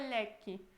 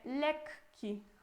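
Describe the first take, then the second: First: The k sound is short and single. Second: The k sound is held long, doubled. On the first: The speaker calls it wrong. "não é lekki" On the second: The speaker calls it right. "a gente pronuncia os dois K"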